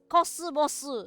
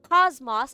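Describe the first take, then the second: First: It is said with Japanese sounds. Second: It is said with English sounds. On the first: The speaker calls it right. "it's cosmos" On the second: The speaker calls it wrong. "It's not cosmos"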